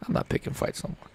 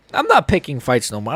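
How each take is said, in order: First: Fast, breathless whisper; fed-up fan repeats his vow to himself, whispered. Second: Said in the usual way. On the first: Real, not acted. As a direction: mutter it under your breath, quickly.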